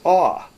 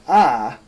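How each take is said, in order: First: The vowel is a rounded 'aw' sound. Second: The vowel is an open 'ah' sound. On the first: This is how older or Orthodox speakers say it. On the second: This is the common modern pronunciation. "Now this means ah"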